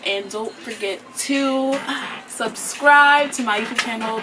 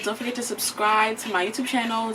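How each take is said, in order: First: It is said slowly. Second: It is said fast.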